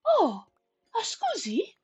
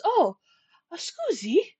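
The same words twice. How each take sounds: First: High mock Italian scusi; gentle giant's polite scusi; Italian-ish apology. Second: Mock Italian, high and light; a big guy's gentle scusi; lightly put-on Italian accent; Italian-ish apology. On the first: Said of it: "looks down at you and goes". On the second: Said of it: "He goes".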